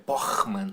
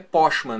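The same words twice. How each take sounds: First: The ch is a rough sound in the throat. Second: The ch is said without a throaty sound. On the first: It is said the German way. "Tu faz o som do R na garganta" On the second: It is read as the spelling suggests. "se tu for ler é Pochmann"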